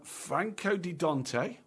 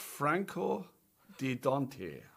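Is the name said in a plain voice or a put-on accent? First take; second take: plain voice; put-on accent. First: It is said in a plain voice. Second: It is said in a put-on foreign accent.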